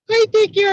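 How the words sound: It is said in an even squeakier Minnie voice. "in the voice of Minnie Mouse. ... kind of the same, but squeakier"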